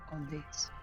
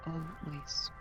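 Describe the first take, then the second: No difference in how they are said.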